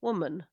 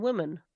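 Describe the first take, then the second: First: "Woman" said as the singular; singular pronunciation. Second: "women" said as the plural; plural pronunciation. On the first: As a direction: show how singular "Woman" sounds. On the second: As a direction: show how plural "women" sounds. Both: Shown as a demonstration. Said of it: "There's not that much difference between it".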